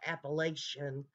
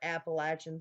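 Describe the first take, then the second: First: The word is said the outsider way. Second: The word is said the local way. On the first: The speaker calls it wrong. "Appalachian is not how you pronounce it" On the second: The speaker calls it right. "we call it Appalachians"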